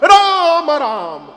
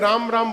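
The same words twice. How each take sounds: First: It is said loudly. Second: It is said softly.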